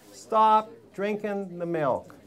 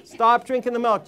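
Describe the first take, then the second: First: Each word laid down slowly; slow it right down so it sinks in; a very slow, weighty order to stop the milk; slow, deliberate command. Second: Said in the usual way. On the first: Shown as a demonstration.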